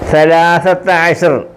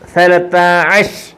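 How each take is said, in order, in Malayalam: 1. ഇത് പൂർണ്ണമായ 'ashar' എന്നും 's' ശബ്ദത്തോടെയും അവസാനിക്കുന്നു. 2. ഇത് മുറിഞ്ഞ 'ash' എന്നും 't' ശബ്ദത്തോടെയും അവസാനിക്കുന്നു.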